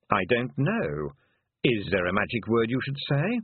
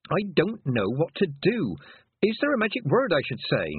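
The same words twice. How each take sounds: First: Unhelpful toad. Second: High, anxious questioning; pleading girl. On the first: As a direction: hand the question back, unhurried. Toad throws her question back. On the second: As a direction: beg for help as a lost girl. Lost girl pleads with toad. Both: Acted.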